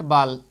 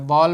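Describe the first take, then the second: First: बाल said with an open a, as in baal; wrong pronunciation. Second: बॉल said with a rounded aw, as in ball; correct pronunciation. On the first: Teacher showing students the wrong reading, बाल as baal. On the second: Teacher showing students the right reading, बॉल with aw. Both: Shown as a demonstration. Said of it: "बाल नहीं पढ़ना है".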